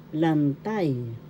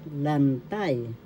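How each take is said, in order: Both takes have the same delivery.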